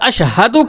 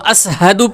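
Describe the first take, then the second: First: The word is said with an 'sh' sound. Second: The word is said with an 's' sound. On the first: "बड़ी शीन" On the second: "अशहदु के बजाय वह असहदु पढ़ते थे"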